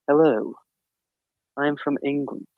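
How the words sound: It is said in an exaggerated stereotypical British accent. "a stereotypical, British accent"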